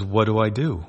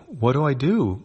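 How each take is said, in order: First: Worried. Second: Higher, more frantic repeat; panicked. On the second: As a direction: pitch up with rising panic. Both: A narrator's reading. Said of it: "She looks worried".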